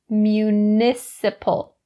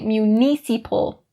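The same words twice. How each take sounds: First: The unstressed vowels are short E sounds. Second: The unstressed vowels are long E sounds. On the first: The speaker calls it right. "It is municipal. All those short E sounds" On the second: The speaker calls it wrong. "Don't say municipal. Not correct"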